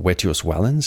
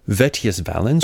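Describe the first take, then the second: First: The name is said in classical Latin pronunciation. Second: The name is said with a regular v sound. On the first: "in classical pronunciation" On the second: "we're just going to go with the regular V"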